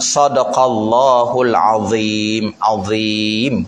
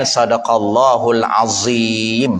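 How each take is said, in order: First: "azim" slowly, with a th-like dh sound; correct pronunciation. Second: "azim" said with a plain z; wrong pronunciation. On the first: Ustaz models the right sadaqallahul azim. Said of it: "Ha, begitu". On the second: Ustaz mimics the common wrong azim, lightly. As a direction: say "sadaqallahul azim" wrongly, with a Malay z. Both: Shown as a demonstration.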